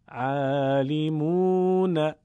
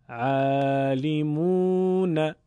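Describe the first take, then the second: No difference in how they are said.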